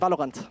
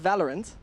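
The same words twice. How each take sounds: First: It is pronounced with a German accent. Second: It is pronounced with an English accent. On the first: "How we say in German? ... We say Valorant" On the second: "we don't say Valorant"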